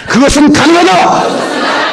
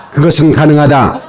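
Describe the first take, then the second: First: High, drawn-out chant shout; full-out congregational declaration, very high; bigger rallying cry. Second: Said in the usual way. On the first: Real, not acted. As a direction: cry it out slowly at the top of the range. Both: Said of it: "더 크게".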